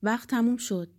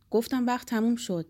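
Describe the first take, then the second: First: Firm call that time is up, a bit louder; guard's raised call, time's up; guard shouting. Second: Insistent, louder repeat of time's up; guard's firmer second call; guard shouting again. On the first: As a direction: call out to end the visit. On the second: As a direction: press it home, losing patience. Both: A narrator's reading. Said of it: "نگهبان داد زد".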